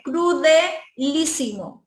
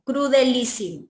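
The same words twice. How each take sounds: First: Crudelísimo said slowly, syllable by syllable; slow model word. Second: Said in the usual way. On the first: Shown as a demonstration. Teacher modeling crudelísimo slowly for students. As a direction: spell out crudelísimo slowly for the class. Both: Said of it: "De cruel".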